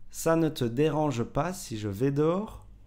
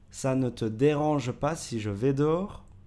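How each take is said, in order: No difference in how they are said.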